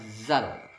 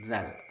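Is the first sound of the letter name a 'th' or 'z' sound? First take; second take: z; th. First: It starts with a buzzing 'z' sound behind the teeth. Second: It starts with a voiced 'th' sound, tongue between teeth. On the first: The speaker calls it wrong. "tidak boleh dibaca zal" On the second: The speaker calls it right. "ujung lidah menempel pada ujung gigi, sedikit dikeluarkan"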